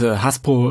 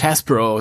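First: The name is said with a Bavarian pronunciation. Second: The name is said with an English pronunciation. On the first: "also jetzt bin ich wieder bayerisch" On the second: "Du sagst immer so schön Englisch Hasbro"

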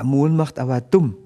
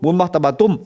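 First: It is said at a normal pace. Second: It is said very fast.

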